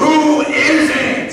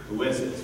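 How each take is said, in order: First: High, loud, drawn-out demand; exasperated shout. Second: Low, soft question; restrained question. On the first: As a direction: explode with impatience, stretching the words. Father explodes after suitor stammers. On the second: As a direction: ask quietly, holding back your temper. Father asks, reining in temper. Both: Acted.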